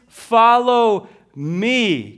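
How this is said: The stress is on "me."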